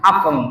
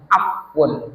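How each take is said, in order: First: The word ends with an 'em' sound. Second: The word ends with an 'un' sound. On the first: This is the altered local form. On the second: This is the original Arabic form.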